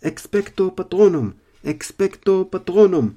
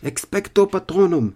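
First: Roaring spell. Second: Loud, high shouted incantation; roaring spell. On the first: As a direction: bellow the spell, dragging it out. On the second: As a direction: roar the spell. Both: Acted. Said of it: "שאג הארי".

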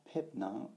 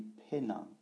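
First: "Pep Nang" with both P sounds in "Pep"; final P sounded. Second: "Pe Nang" with no P before "Nang"; final P dropped. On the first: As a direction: close "Pep" on a P before "Nang". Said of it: "on dit pas". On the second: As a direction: run open "Pe" straight into "Nang". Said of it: "le P final de Pep est enlevé". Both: Shown as a demonstration.

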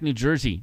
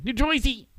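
First: Said in the usual way. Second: High, exaggerated Jersey twang; New Jersey accent. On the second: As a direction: belt it like a local.

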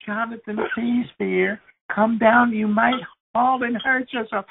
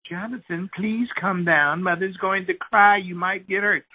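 First: Mother now near panic, voice climbing; panicky mother, higher. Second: Gentle, anxious begging, not yet desperate; mock pleading mother. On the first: Retold or imitated. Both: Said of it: "his mother was going".

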